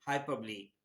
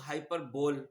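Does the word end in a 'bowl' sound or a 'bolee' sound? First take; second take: bolee; bowl. First: The word ends in two syllables, 'bo-lee'. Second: The word ends in a single 'bowl' syllable. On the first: The speaker calls it right. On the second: The speaker calls it wrong.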